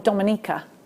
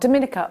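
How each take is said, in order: First: The name is said the way locals say it. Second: The name is said the common outsider way.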